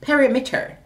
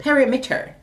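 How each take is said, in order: First: Every syllable is pronounced fully, Jamaican style. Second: Every syllable is pronounced fully, Jamaican style.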